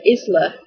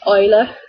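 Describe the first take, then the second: First: The name is said with an S sound. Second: The name is said without an S sound. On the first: "scared people will call her Isla, because that's how it's written" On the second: "Another name that we both really like is Isla"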